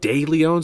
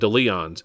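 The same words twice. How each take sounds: First: The first syllable sounds like 'day'. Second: The first syllable sounds like 'dee'. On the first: It is said the way others say it. "where's the day coming from?" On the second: It is read the way it looks on the sign. "pronounce it the way it looks on the sign"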